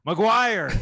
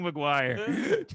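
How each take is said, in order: First: Sudden loud, higher yell; dad yelling. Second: Mock yell at normal volume, half-laughing; retold yell. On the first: Retold or imitated. Son imitates his sports-fan dad listening in, yelling. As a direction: imitate dad hollering at the radio. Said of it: "And he was yelling". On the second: Son repeats his dad's yelling for the hosts, laughing mock yell. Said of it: "he was yelling".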